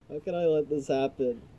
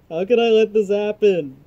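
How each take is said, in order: First: It is said at normal, quieter volume. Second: It is said louder, with more force.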